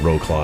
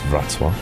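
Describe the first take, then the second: First: It is pronounced as spelled, like 'row claw'. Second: It is pronounced the native Polish way. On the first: This is the common outsider pronunciation. The speaker calls it wrong. "That's how everyone pronounces it" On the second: This is the actual local pronunciation. The speaker calls it right. "but it's Wrocław"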